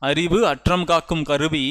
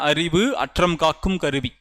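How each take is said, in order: First: Each word is said separately and clearly. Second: Each word is said separately and clearly.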